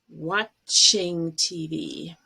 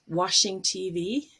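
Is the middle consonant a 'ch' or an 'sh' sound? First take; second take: ch; sh. First: The middle consonant starts with a stop, 'ch'. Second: The middle consonant is a smooth 'sh' sound. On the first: It means looking at the TV. The speaker calls it right. "you need to make that stop like a T" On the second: It sounds like cleaning the TV with water. The speaker calls it wrong. "a lot of people say washing T V, which would be water and soap"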